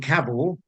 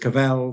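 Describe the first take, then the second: First: The stress is on the first syllable. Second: The stress is on the second syllable. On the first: This is how the family and Norfolk say it. "our surname rhymes with travel, not with hell" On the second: This is how Europe says it, following French. "the stress is on the second syllable"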